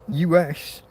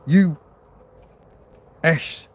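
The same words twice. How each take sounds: First: The letters are said together without a pause. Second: A long pause falls between the two letters. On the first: The speaker calls it right. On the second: The speaker calls it wrong.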